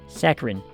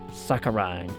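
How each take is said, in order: First: The last syllable rhymes with 'fin'. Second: The last syllable rhymes with 'fine'. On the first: The speaker calls it right. "Rin, not Rhine" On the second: The speaker calls it wrong. "Like a rhino"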